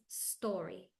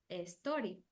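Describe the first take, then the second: First: The word starts directly with the s sound. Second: An extra e vowel comes before the s. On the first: The speaker calls it right. "it's story. No, not the letter E" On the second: The speaker calls it wrong. "Entonces queremos decir story. But no"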